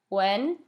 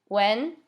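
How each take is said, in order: No difference in how they are said.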